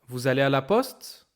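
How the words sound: The pitch rises at the end. It is a question. "When it's a question, the tone goes up"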